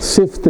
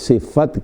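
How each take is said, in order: First: The f is followed directly by t, no vowel. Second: The f is followed by a short a vowel. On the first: The speaker calls it wrong. "सिफ़्त कहते हैं लोग, ये गलत है" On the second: The speaker calls it right. "फ़ा के ऊपर ज़बर है, सिफ़त कहिए"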